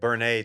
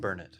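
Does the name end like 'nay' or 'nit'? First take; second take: nay; nit. First: The name ends with a 'nay' sound. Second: The name ends with a 'nit' sound. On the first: The speaker calls it right. "is actually how it's pronounced" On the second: The speaker calls it wrong. "Not Burn it"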